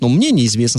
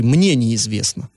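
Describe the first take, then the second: First: Said in the usual way. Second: Slow «Мне неизвестно», МНЕ leaned on; stress on МНЕ. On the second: Retold or imitated. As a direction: drag out «Мне неизвестно» with weight on МНЕ. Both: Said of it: "с такой оговорочкой".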